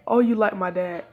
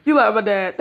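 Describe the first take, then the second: First: Said in the usual way. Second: Louder sing-song teasing; loud tease. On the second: Acted. Naruto teasing the blushing girl, louder and mocking. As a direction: rub it in loudly.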